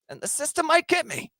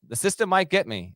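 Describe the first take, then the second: First: It imitates the coach's tone of voice. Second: It is said in the speaker's plain voice.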